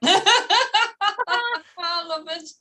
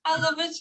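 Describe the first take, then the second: First: Laughing. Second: Said in the usual way. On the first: Real, not acted. Laughing delight.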